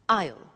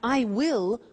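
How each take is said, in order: First: The words are joined into one contracted syllable. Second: Both words are said in full. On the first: "contracted to become I'll" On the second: "We have I will"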